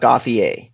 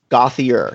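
First: The name ends with a French-style vowel. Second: The name ends with an 'ear' sound. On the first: The speaker calls it wrong. "the sort of French E approach, but it's not" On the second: The speaker calls it right. "It's like gothic, and ear like your ear that you hear out of"

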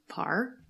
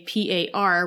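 First: It is spoken as a single word. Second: It is spelled out letter by letter. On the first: It is treated as an acronym. "an acronym for you would be PAR" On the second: It is treated as an initialism. "which would be an initialism for your name"

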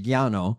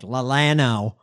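First: The name is pronounced the Spanish way. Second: The name is pronounced an anglicized, Texan way. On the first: "in Espanol it'd be Llano" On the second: "The Texans probably like Lallano"

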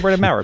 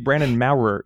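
First: The first R is almost dropped, said quickly. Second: The first R is clearly pronounced, more slowly. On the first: The speaker calls it right. "you just treat it as a semi-silent R" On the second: The speaker calls it wrong. "If you try to pronounce it, like if you say Brandon Maurer, you have to slow yourself down"

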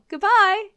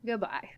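First: It is said in a friendly way. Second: It is said with disdain.

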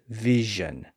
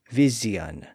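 First: The middle consonant is a buzzing zh sound. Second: The middle consonant is a buzzing z sound. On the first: This is the later modern pronunciation. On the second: This is an intermediate stage of the change.

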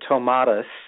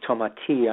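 First: The name is said with an American pronunciation. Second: The name is said with a French pronunciation. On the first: "some people pronounce it here in America" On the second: "in France, it's Tomati"

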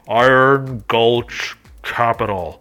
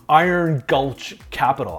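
First: It is said in a deep, menacing put-on voice. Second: It is said in an ordinary speaking voice.

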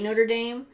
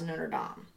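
First: The name is pronounced in an anglicized way. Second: The name is pronounced in the French way. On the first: This is how most people say it. The speaker calls it wrong. "I think people say Notre Dame" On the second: This is the proper pronunciation. The speaker calls it right. "it's supposed to be pronounced Notre Dame"

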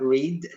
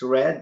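First: The vowel is long, as in seed. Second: The vowel is short, as in bed. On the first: The speaker calls it wrong. "not Reed" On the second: The speaker calls it right. "you pronounced it right. It's Red"

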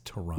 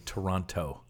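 First: The second T is dropped and silent. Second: The second T is clearly pronounced. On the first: This is how locals say the city name. The speaker calls it right. "It's Toronto. No second T" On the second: This is how outsiders say the city name. The speaker calls it wrong. "people in the States say Toronto"

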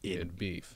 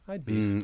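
First: The first word sounds like 'id'. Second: The first word sounds like 'eyed'. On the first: The hashtag is read as the id of ego and superego. "As in ego, super ego" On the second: The hashtag is read as a contraction of 'I would'. "all you see is I'd beef"

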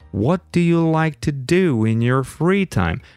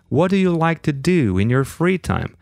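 First: The sentence is spoken at a very slow pace. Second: The sentence is spoken at a slower pace. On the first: "Or even very slowly" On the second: "I can go slower"

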